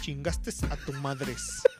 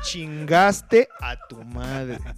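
First: It is said fast. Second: It is said slowly.

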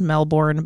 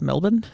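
First: The second syllable is fully pronounced as spelled. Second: The second syllable is reduced and unstressed. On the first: This follows the spelling of the name. The speaker calls it wrong. "I know it's spelled Melbourne" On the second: This is how local people say the name. The speaker calls it right. "the locals call it Melbourne"

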